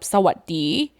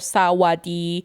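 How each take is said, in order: First: The middle S sound is heard. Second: The middle S sound is dropped. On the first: "instead of sawadi" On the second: "many people even hear sawadi"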